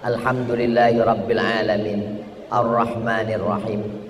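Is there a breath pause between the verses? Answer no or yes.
yes. A breath pause separates the two verses. "Jadi Fatihah itu tujuh nafas"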